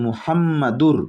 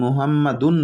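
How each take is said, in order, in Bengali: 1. শব্দটি একটি r ধ্বনি দিয়ে শেষ হয়। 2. শব্দটি একটি স্পষ্ট n ধ্বনি দিয়ে শেষ হয়। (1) "কিন্তু আমরা যেহেতু থামবো না, তাই মুহাম্মাদুর" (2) "এখানে যদি আমরা থেমে যাইতাম তাহলে মুহাম্মাদুন বলতাম"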